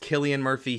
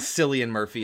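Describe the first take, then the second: First: The name is said with its Irish pronunciation. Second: The name is said with a non-Irish pronunciation. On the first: The speaker calls it right. "He's Irish, so it has a different pronunciation" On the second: The speaker calls it wrong. "It's not Cillian Murphy"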